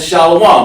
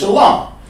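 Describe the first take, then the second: First: The word is said with an added w sound. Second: The word is said without an added w sound. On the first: The speaker calls it wrong. "They added the wa in there" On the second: The speaker calls it right. "The word is shalom"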